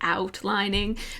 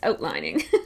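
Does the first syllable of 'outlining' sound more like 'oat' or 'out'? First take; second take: out; oat. First: The first vowel is a wider 'out' sound. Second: The first vowel sounds closer to 'oat'. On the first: An attempt to avoid the speaker's usual accent. "I was trying to say outlining" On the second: The speaker's own natural way of talking. "that's just not how I talk. So uh, it's outlining"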